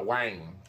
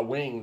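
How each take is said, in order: First: "wang" with a drawn-out ai vowel; Southern wang. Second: "wing" with a short clipped i. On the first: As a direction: stretch "wang" into a long ai. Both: Shown as a demonstration. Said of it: "That's what the old folks used to say".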